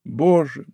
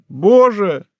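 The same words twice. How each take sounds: First: Said in the usual way. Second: The second боже higher and louder, breaking out; escalating cry of despair on боже; anguished cry. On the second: Acted. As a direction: let the repeated боже burst into a cry.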